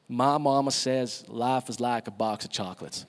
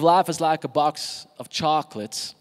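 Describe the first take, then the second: First: Put-on Forrest Gump's Southern US accent, a little lower. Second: Said in the usual way. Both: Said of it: "that's my best Southern accent".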